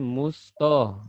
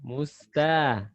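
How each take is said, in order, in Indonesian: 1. Bunyi t-nya tebal, dengan vokal yang lebih gelap. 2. Bunyi t-nya tipis, dengan vokal yang jelas. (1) "Musto tebal" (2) "musta tipis"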